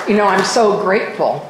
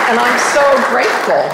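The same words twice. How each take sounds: First: Said in the usual way. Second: Heartfelt gratitude. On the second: Real, not acted.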